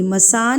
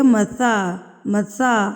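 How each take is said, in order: First: مسا with a hissing "s"; wrong whistling s. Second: مسا with soft "th", tongue on the teeth; soft tha. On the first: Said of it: "اس میں سیٹی نہیں ہوگی". (مسا غلط، سیٹی کے ساتھ) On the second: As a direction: say مسا gently, no hiss. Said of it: "اس کو نرمی سے ہم پڑھیں گے". (مسا صحیح، نرمی سے ث) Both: Shown as a demonstration.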